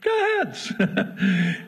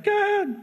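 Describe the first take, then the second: First: Slow amused repeat. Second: God's brisk reply. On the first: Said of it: "So he". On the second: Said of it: "And God's like". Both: Acted.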